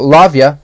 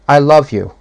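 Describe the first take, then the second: First: It is tossed off casually, in a hurry. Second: It is said slowly and earnestly, after a pause.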